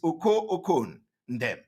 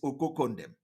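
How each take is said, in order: First: The name is said as separate parts. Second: The name is run together as one word. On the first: This is the original form of the name. "but the name is Oko Okon Ndem" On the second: This is how people say it nowadays. "the way to pronounce it these days is Okokondem"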